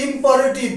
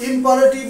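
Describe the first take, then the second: No difference in how they are said.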